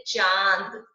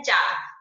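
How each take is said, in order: First: चांद loud, with a long nasal चां; stress on चा. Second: चांद read as चाद, loud, no nasal sound; without nasal. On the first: Teacher reading चांद with chandrabindu added, stress on चा. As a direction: push चा through the nose in चांद. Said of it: "चा पर जोर देते हुए". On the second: Teacher reading चांद with the chandrabindu hidden, without nasal. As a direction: say चांद with a purely oral आ, as चाद. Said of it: "इसको छुपा दो एक बार". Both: Shown as a demonstration.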